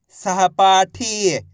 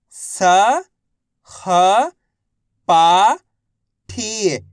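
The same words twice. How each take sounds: First: Said in the usual way. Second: सहपाठी stretched slowly syllable by syllable. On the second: Shown as a demonstration. Teacher spelling out सहपाठी for children. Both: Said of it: "तो मिलके बन जाएगा".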